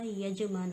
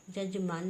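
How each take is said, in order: First: यजमान starting with y, yajman; correct pronunciation. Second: जजमान starting with j, jajman; wrong pronunciation. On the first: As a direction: open यजमान on a y glide. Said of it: "होता है". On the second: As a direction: say जजमान with two j sounds. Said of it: "नहीं होता". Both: Shown as a demonstration.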